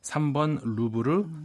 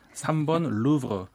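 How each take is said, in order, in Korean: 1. 이 이름은 한국식 발음으로 합니다. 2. 이 이름은 프랑스식 발음으로 합니다.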